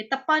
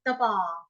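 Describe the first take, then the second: First: "तप्पा" with a clipped double pp; wrong doubled p. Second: "तपा" with one light p and long falling aa; correct single p. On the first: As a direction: show the mistake, tap-paa, in "तप्पा". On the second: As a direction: say "तपा" lower, ta-paa, drawing out the end. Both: Shown as a demonstration. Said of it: "तप्पा नहीं है".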